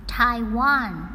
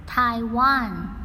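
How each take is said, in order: Both takes have the same delivery.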